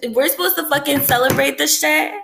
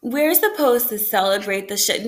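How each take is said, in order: First: Higher-pitched, indignant rhetorical question; incredulous. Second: Said in the usual way. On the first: Real, not acted. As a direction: throw it out in disbelief. Incredulous rant about celebrating Christmas.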